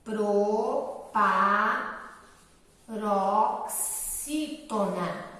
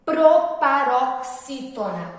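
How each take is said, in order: First: "Proparoxítona" in very long separate syllables, lower; slow dictation. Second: "proparoxítona" slow, PRO-pa-rok-SÍ-tona; emphatic term. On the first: Teacher writing the term for pupils, very slow low dictation. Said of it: "Tia [name] vai escrever aqui". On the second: Teacher naming the class of the words, slow and emphatic. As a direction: announce "proparoxítona" firmly. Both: Shown as a demonstration.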